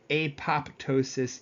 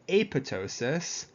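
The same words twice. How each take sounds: First: The second P is pronounced aloud. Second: The second P is left silent. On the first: The speaker calls it wrong. "you don't say apoptosis either" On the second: The speaker calls it right. "The second P in apoptosis is silent"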